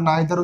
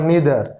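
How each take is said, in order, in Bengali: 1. প্রথম স্বরধ্বনিটি 'eye'-এর মতো শোনায়। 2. প্রথম স্বরধ্বনিটি 'ee'-এর মতো শোনায়। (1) "অনেক যারা নাইদার উচ্চারণ করে" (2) "তা হবে ইদার আর নিদার"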